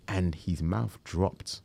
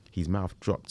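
First: Slow reveal. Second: Said in the usual way. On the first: Shown as a demonstration.

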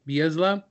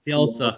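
First: Bielsa as a questioning bee-EZ-luh, rising; mispronounced surname. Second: Bielsa said bee-EL-suh, falling; corrected surname. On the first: Host asking how the surname goes, mispronounced Bielsa as bee-EZ-luh. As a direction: guess at Bielsa as bee-EZ-luh, pitch lifting. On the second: Host repeating the co-host's correction, Bielsa pronounced bee-EL-suh. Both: Real, not acted. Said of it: "have a hard time saying his last name".

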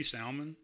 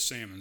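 First: Salmon with the L sounded, SAL-mun; salmon as in "Sal" plus "mun"; alternative pronunciation. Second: Salmon with silent L, SAM-un; common pronunciation. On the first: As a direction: try salmon with an audible L. Considering the L pronunciation. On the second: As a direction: say salmon without any L. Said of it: "everybody I know says salmon". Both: Shown as a demonstration.

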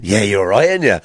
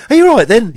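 First: Low reply on the pet's behalf; answering for the dog. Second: High, loud cooing at the dog; owner's high doggy-talk voice. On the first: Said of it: "You always answer for them". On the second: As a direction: gush at your pet, pitched right up. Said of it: "when you do talk to your dogs". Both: Retold or imitated.

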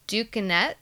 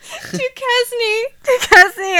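First: Duquesne said as tukənɛt, fumbling; Duquesne stumbled. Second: Duquesne said high and loud as tukɛzni; Duquesne overdone. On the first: Real, not acted. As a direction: trip over Duquesne. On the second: Shown as a demonstration. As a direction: belt out Duquesne, exaggerated. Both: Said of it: "I knew I was gonna stumble over that".

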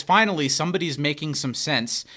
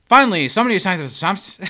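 First: Said in the usual way. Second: Rushed, louder line reading; hurried, stilted delivery of the line; bad acting. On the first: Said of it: "when Pierce says". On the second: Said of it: "Chevy delivers it like".

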